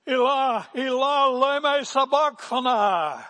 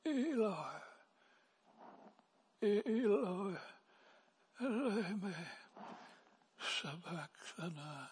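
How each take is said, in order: First: Full-voiced high, anguished cry; Jesus. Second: High, thin, faint wail fading softer; weak, barely managed cry. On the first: Preacher as Jesus crying out from the cross, loud high wail. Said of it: "with a loud voice". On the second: Acted. Preacher imagining himself on the cross, feeble high moan. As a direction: wail it feebly, as if hardly able to speak. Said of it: "I would probably have said, if I could say anything".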